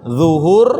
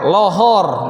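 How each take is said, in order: First: The word begins with a heavy dh sound. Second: The word begins with an l sound. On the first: "pakai dho" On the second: "Ada lagi pakai l"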